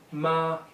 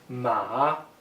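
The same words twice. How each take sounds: First: The pitch stays high and level. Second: The pitch dips down and then rises. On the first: It means mother. "first tone, flat tone" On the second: It means horse. "Third tone, descending then rising"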